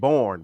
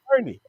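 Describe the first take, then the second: First: The name is said as one syllable. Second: The name is said as two syllables. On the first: Someone else said it this way. "everybody kept saying Born" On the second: This is the local pronunciation. "you mean Bernie"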